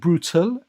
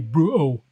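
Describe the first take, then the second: First: The T in the middle is clearly pronounced. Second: The T in the middle is dropped. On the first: "putting a bit of emphasis on the T" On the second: "it will be brutal"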